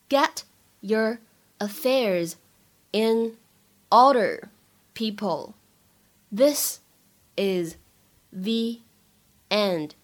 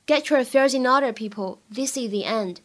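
First: Each word said alone with long pauses; slow dictation pace. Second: Said in the usual way. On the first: Shown as a demonstration. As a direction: drill it slowly, one word at a time. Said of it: "teacher drills line word by word". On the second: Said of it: "teacher repeats at normal speed".

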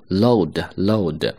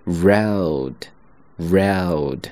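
First: Load with an l instead of r, slowly; common mistake. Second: Road with a strong, forceful r; correct road. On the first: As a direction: imitate the wrong load. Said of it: "很多同学发的时候呢，把这个音会发为load". (模仿错误发音load) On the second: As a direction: push the r hard in road. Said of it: "和后面连接起来就会是". (用力发r的road) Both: Shown as a demonstration.

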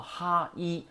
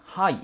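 First: 哈伊 split into two separate sounds, "ha, i"; syllable by syllable. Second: Said in the usual way. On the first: Shown as a demonstration. Teacher showing how 杯 is read, syllable by syllable. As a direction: sound out 哈伊 as ha, then i. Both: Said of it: "读成哈伊啊".

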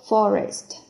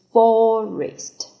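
First: "forest" with a shorter first vowel; second pronunciation. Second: "Forest" with a long "for", higher and louder; first pronunciation. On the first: Teacher shows the second reading, "forest" with shorter "for". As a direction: say "forest" keeping "for" brief. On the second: Teacher models the first reading, "Forest" with long high "for". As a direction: say "Forest" stretching the first vowel. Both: Shown as a demonstration. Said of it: "第二种读法".

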